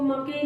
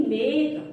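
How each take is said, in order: First: मके in two syllables, final e sounded; wrong reading. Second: Said in the usual way. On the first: Shown as a demonstration. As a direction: misread make as मके, "muh-kay". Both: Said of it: "इसको मके नहीं बोलेंगे".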